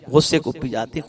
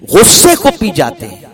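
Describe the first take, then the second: First: Said in the usual way. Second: غصے کو پی جاتے ہیں said high and loud, stress on کو; forceful first take. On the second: Shown as a demonstration. (غصے کو پی جاتے ہیں بلند آواز میں)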